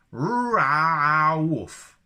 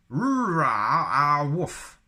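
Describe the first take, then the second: First: Loud, high mock Wookiee bark. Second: Loud, high, slow mock Wookiee howl. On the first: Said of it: "How do you take your coffee?". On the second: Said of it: "blue sky thinking". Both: Shown as a demonstration.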